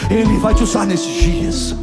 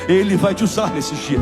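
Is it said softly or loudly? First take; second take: loudly; softly. First: It is said louder and more forcefully. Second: It is said at normal loudness.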